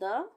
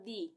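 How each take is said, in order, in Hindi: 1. स्वर एक छोटी 'uh' ध्वनि है। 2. स्वर एक लंबी 'ee' ध्वनि है। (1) "द को द और दी दोनों तरह से प्रोनाउंस करते हैं" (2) "द को द और दी दोनों तरह से प्रोनाउंस करते हैं"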